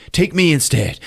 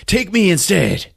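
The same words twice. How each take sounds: First: Raised-pitch mock plea; acted plea. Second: Much higher, drawn-out mock plea; desperate acted plea. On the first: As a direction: plead to be taken in his place. Acted plea, first take. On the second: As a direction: plead urgently, high and stretched out. Acted plea, escalated repeat.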